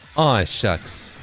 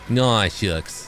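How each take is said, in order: First: The words are fully and crisply enunciated. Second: The sh is soft, teeth not fully closed. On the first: The speaker calls it wrong. "You're not supposed to say, like" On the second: The speaker calls it right. "you're supposed to go like, ... you don't fully close your teeth with the sh sound"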